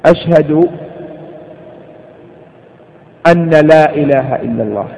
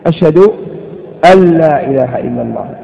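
First: The n sound is pronounced separately before l. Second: The n sound is assimilated into the l. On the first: The speaker calls it wrong. "هذا لحن أليس كذلك؟" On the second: The speaker calls it right. "الصحيح أن يقول: ... إدغاما"

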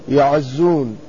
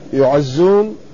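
First: The first syllable has an 'a' vowel, ya. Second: The first syllable has a 'u' vowel, yu. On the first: The speaker calls it right. "يكون الياء مفتوحة، يعزون" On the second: The speaker calls it wrong. "لا يعزون"

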